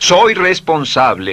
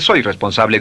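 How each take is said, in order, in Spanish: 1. Se dice con emoción intensa y cálida. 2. Se dice con tono plano, sin emoción. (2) "no dice"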